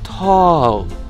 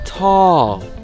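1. 이 모음은 입을 크게 벌려서 말해요. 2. 이 모음은 입을 크게 벌려서 말해요.

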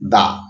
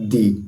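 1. এই স্বরধ্বনিটি একটি ছোট 'uh' ধ্বনি। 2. এই স্বরধ্বনিটি একটি লম্বা 'ee' ধ্বনি। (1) "তখন তার উচ্চারণ হবে দা" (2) "তখন তার উচ্চারণ হবে দি"

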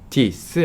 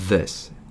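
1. 한국식 d 소리로 발음했어요. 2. 영어 th 소리로 발음했어요.

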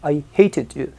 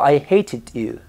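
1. Se dice con acento británico. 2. Se dice con acento británico.

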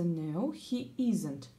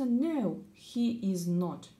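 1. Слова сокращаются до 'isn't'. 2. Слова 'is not' произносятся полностью. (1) "Бывают сокращения в речи. Чтобы время сэкономить, происходит сокращение" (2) "Произносится No, he is not"

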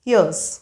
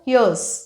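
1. हे दोन शब्द एकत्र जोडून एकच शॉर्ट फॉर्म होतो. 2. हे दोन शब्द एकत्र जोडून एकच शॉर्ट फॉर्म होतो.

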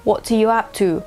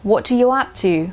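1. เสียงพยัญชนะใน 'up to' ฟังเหมือนเสียง T ชัด 2. เสียงพยัญชนะใน 'up to' ฟังเหมือนเสียง T ชัด

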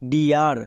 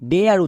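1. স্বরধ্বনিটি 'ee' এর মতো শোনায়, যেমন deer শব্দে। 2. স্বরধ্বনিটি 'eh' এর মতো শোনায়, যেমন dare শব্দে। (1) "এটা হচ্ছে ডিয়ার" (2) "অনেকে ভুল করে ডেয়ার উচ্চারণ করে"

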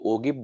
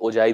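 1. 'g' कड़ा है और अंत 'ib' जैसा बोला जाता है। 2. 'g' 'j' की तरह नरम है, अंत 'ive' है। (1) "अक्सर लोग इसको ओगिब बोलते हैं, बोलते नहीं" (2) "आप गूगल से भी प्रोनाउंसिएशन इसका देखेंगे तो ओजाइब ही बोला जाता है"

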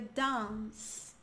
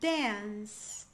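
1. É pronunciada com sotaque britânico. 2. É pronunciada com sotaque americano. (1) "um britânico diria" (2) "Um americano diria"

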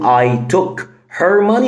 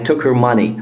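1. بيتقال ببطء والـ h في 'her' بيتنطق. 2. بيتقال بسرعة والـ h في 'her' بيتحذف. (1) "فهقول" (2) "ولا بسرعة"

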